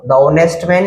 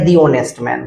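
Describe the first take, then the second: First: The word 'the' has a short 'thuh' vowel. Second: The word 'the' has a long 'thee' vowel. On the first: The speaker calls it wrong. "द आएगा" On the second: The speaker calls it right. "तो दी का use करेंगे"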